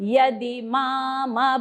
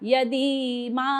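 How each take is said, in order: First: The word ends with the lips closed on m. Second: The word ends open, with no final m. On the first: The speaker calls it right. "म नंतर ओठ बंद" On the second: The speaker calls it wrong. "काय कसं ऐकायला येतंय बघा"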